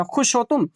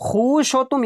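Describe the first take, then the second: First: खुश with a short u, khush; correct reading. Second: खुश with a long oo, khoosh, pitched up; wrong reading. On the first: Teacher corrects to everyday speech, short khush. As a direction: say खुश short, vowel not stretched. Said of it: "नहीं कहा जाता". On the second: Teacher mocks reading it as written, stretched khoosh. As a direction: stretch the vowel in खुश, higher. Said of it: "ये ऐसा कहा जाता है". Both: Shown as a demonstration.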